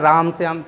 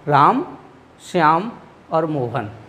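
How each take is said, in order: First: The names are said at once, without a pause. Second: There is a short pause between the names.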